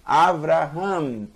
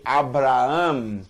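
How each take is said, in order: First: Avraham said slowly with a V; correct V version. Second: Abraham said with a hard B, slowly; wrong B version. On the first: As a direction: demo the right V in Avraham. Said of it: "Não bra". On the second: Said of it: "Não". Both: Shown as a demonstration.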